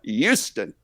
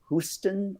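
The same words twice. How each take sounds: First: It is said the Texan way, stressing the U. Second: It is said the British way.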